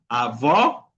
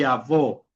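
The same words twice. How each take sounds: First: "Avó" with an open, rising final o; outward open vowel. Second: "avó" with a closed, falling final o; inward closed vowel. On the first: Teacher contrasting grandmother with grandfather, open final vowel on "Avó". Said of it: "una fuerza de voz para afuera". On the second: Teacher contrasting grandfather with grandmother, closed final vowel on "avó". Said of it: "un poco más para adentro". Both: Shown as a demonstration.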